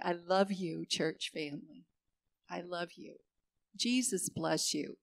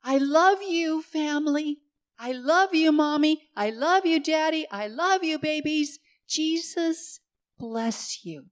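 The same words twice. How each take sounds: First: Tender. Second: High and loud, calling up to hospital windows; child's happy calling out. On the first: Pretend. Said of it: "I'm rolling down the window and I'm putting out my hand and I'm going". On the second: Retold or imitated. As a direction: call out like an excited little boy waving at the windows. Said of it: "And he'd call out".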